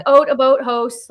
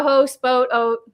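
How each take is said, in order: First: "Oat, a boat, host" with long rounded Canadian O's; Canadian vowels on "Oat" and "boat". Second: "Host, boat, oat" with rounded Canadian O's; Canadian vowels on "boat" and "oat". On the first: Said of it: "that's how I say my O's". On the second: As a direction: lean into the O in "Host". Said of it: "That comes out if I go". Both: Shown as a demonstration.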